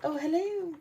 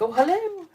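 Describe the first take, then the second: First: It is said quietly and calmly. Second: It is said loudly, almost yelled.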